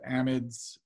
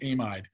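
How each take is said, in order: First: It is pronounced the American way. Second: It is pronounced the non-American way. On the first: "if you go to America, they pronounce it amides" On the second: "it's an amide"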